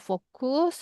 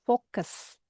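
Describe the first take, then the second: First: It is said with Indonesian vowels and rhythm. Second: It is said with English vowels and rhythm. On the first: The speaker calls it wrong. "not focus atau fokus in bahasa Indonesia" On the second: The speaker calls it right. "but this one is focus"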